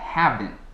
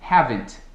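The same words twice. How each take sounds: First: The final T sound is held, not released. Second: The final T sound is clearly released. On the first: The speaker calls it right. "um falante nativo diria haven't, terminando com M e a ponto de dizer a T, mas não dizendo o T" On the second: The speaker calls it wrong. "têm a tendência de pronunciar o T afim"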